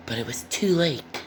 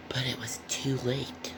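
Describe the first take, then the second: First: Said in the usual way. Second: Hushed dramatic whisper. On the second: A narrator's reading. Reader whispers the sad turn to the children. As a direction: breathe it out, all voice gone. Repeated story line whispered.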